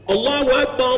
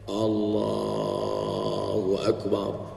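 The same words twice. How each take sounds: First: It is called out loudly and forcefully. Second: It is said softly and weakly.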